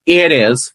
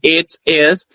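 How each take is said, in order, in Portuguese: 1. As duas palavras são ditas juntas. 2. As duas palavras são ditas separadamente.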